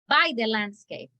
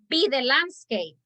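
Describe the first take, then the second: First: The first word is said like 'bye'. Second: The first word is said like 'bee'. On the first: The speaker calls it right. "I think you wanted to say by" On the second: The speaker calls it wrong. "but you said B"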